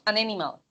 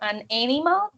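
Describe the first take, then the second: First: The two words are joined into one. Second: The two words are said separately.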